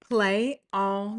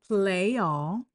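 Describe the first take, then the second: First: The words are separated with a choppy break. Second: The words are joined smoothly without a break. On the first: The speaker calls it wrong. "that is someone who doesn't know how to co- how to link sounds" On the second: The speaker calls it right. "if we connected it, it sounds really smooth"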